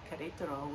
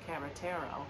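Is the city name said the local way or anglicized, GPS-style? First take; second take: local; anglicized. First: The name is said in its local Spanish form. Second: The name is said in a garbled, anglicized form.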